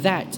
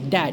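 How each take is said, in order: First: The word begins with a soft th sound. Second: The word begins with a hard stop sound. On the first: The speaker calls it right. "instead of saying" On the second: The speaker calls it wrong. "I used to say"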